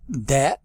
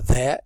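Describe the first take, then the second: First: The word starts with a 'd' sound. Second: The word starts with a 'th' sound.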